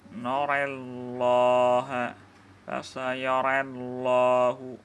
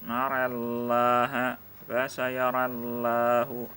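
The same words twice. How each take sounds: First: The vowels lean toward 'e', with a thick lam. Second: The vowels lean toward 'e', with a thin lam. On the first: "Dibaca dengan imalah serta menebalkan bunyi lam pada lafaz Allahnya" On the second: "dibaca imalah serta tipis pada lam lafaz jalalahnya"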